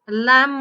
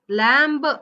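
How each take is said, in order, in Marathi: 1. शेवटचा b उच्चारला जात नाही. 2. शेवटचा b उच्चारला जातो. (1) "लॅम्ब म्हणायचंय" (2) "असं नाही म्हणायचंय"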